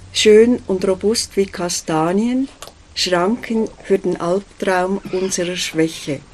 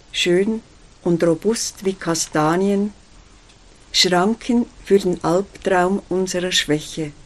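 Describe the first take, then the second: No difference in how they are said.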